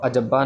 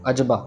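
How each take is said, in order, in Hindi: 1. b की ध्वनि दोहरी और रुकी हुई है। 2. b की ध्वनि एकल और नरम है। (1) "अजब्बा नहीं" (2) "इसको भी सॉफ्टली पढ़ना है"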